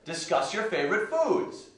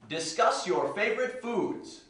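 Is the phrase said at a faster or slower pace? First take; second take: faster; slower. First: The phrase is said at a faster pace. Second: The phrase is said at a slower pace.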